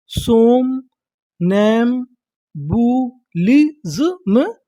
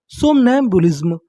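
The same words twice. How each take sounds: First: सोम, नैम, बू, लिज्म drawn out slowly with pauses; syllable by syllable. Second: Said in the usual way. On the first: Shown as a demonstration. Teacher assembling a new word for learners, slow syllable by syllable. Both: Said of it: "देखिए हमारी पूरी meaning क्या बनी".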